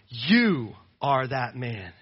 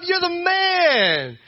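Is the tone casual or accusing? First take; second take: accusing; casual. First: It sounds like a stern, direct accusation. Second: It sounds like casual, friendly praise.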